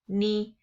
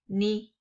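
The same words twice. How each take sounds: Both takes have the same delivery.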